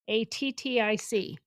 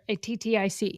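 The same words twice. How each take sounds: First: The letters are spelled at an ordinary, slower pace. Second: The letters are spelled quickly, run together.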